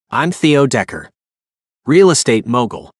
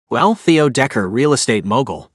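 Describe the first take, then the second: First: Said in the usual way. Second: A light mocking sneer on the name and title; mild sneer. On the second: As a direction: throw his own words back at him with a touch of scorn. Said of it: "said with a sneer".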